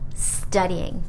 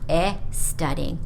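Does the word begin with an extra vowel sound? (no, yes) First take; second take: no; yes. First: The word starts directly with the s sound. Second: An extra vowel sound comes before the word. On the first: The speaker calls it right. "Please remember to say studying" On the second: The speaker calls it wrong. "not e studying or estudying"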